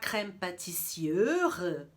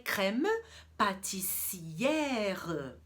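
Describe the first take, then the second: First: The E in 'pâtissière' is a closed vowel. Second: The E in 'pâtissière' is an open vowel. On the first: The speaker calls it wrong. "eu não vou falar crème pâtissière, até difícil de pronunciar" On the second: The speaker calls it right. "Com o acentozinho eu vou abrir o E"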